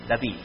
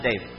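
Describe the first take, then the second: First: The name is said with Hebrew pronunciation. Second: The name is said with English pronunciation. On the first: The speaker calls it right. "the pronunciation in Hebrew is David. That is my name" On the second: The speaker calls it wrong. "not David"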